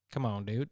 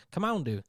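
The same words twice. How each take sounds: First: Low, soft "come on, dude"; quietly, low, in mock protest; low mock disbelief. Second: Higher-pitched "come on, dude"; higher mock disbelief. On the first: After the punchline, low soft mock disbelief. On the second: After the punchline, higher-pitched mock disbelief. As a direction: lift the protest up high. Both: Repeated muttered bit after the joke.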